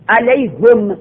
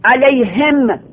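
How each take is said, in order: First: علیهم read 'alayhum' with a u on the ha; Arabic 'alayhum' with damma. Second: علیهم read 'alayhim' with an i on the ha; Arabic 'alayhim' with kasra. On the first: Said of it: "علیهم به ضمها". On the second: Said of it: "این علیهم به کسرها". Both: Shown as a demonstration.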